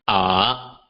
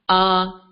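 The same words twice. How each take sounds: First: The pitch dips down and then rises. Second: The pitch stays high and level. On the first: "the third tone, first dropping, then rising" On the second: "the high and flat tone, known as the first tone"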